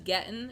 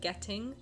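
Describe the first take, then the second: First: The final sound of the word is dropped. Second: The final sound of the word is clearly pronounced. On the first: It is the casual way he usually talks. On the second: It is careful, enunciated speech.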